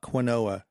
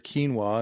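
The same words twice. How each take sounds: First: It is sounded out letter by letter, kwin-oh-ah. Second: It is said in two syllables, keen-wah. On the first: The speaker calls it wrong. "it's not quinoa. That's how most people probably read it" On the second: The speaker calls it right. "and then they hear quinoa"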